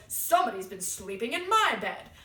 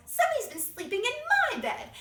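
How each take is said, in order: First: Loud, indignant big bear; Papa Bear. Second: High, loud, indignant bear voice; Mama Bear. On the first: Papa Bear finding his bed slept in, loud indignation. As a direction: boom it out, outraged, without raising the pitch. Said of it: "Papa Bear goes". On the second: Mama Bear finding her bed slept in, high-pitched outrage. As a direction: exclaim it way up high. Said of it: "Mama Bear goes". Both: Acted.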